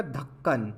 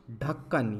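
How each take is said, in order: First: धक्कन with an aspirated dental ध. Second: ढक्कन with an aspirated retroflex ढ. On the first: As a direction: say धक्कन with the tongue on the teeth. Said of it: "अगर मैं ध लगा दूं". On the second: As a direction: say ढक्कन with the tongue curled back. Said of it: "जैसे शब्द बनता है ढक्कन". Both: Shown as a demonstration.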